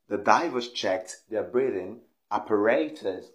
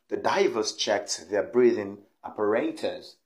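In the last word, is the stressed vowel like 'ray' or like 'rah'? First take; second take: ray; ray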